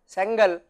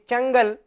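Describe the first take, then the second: First: The name begins with an s sound. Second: The name begins with a ch sound. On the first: The speaker calls it wrong. "you may feel that I should be pronouncing it as Sengal" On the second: The speaker calls it right. "It is Chengal"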